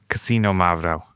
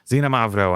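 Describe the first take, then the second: First: The word begins with a ks sound. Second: The word begins with a plain z sound. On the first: The speaker calls it right. "It's Casino Mavro. Oh, that's right" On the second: The speaker calls it wrong. "it's not Xinomavro"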